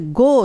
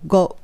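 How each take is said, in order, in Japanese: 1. 'go'の母音は長く伸ばします。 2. 'go'の母音は伸ばしません。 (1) "これgo って伸ばす人多いんですけども" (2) "ちゃんとgo っていう風に言う方がいいです"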